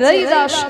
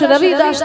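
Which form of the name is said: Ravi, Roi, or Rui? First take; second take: Roi; Ravi. First: The 'v' softens into a vowel, giving 'Roi'. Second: The first name has a clear 'v' sound. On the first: This is the softened form used in Hindi speech. "হিন্দিতে বটা একটু উ উচ্চারণ হয়" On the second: This is the name as originally written. "তার নাম হচ্ছে রবি দাস"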